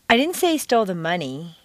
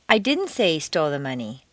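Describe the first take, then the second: First: The stress is on the word money. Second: The stress is on the word didn't.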